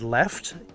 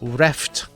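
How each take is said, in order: First: The word begins with an L sound. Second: The word begins with an R sound. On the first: "the word left" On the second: "it may come out as reft"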